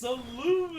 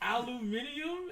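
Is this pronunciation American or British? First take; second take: American; British. First: It is said with the American pronunciation. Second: It is said with the British pronunciation. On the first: The speaker calls it right. "it's aluminum" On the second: The speaker calls it wrong. "a word that doesn't exist"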